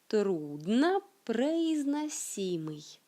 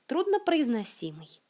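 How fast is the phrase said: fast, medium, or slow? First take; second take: medium; fast. First: The phrase is said at a moderate speed. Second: The phrase is said quickly and fluently. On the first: "Un peu plus vite" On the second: "comment dirait un natif de la langue russe?"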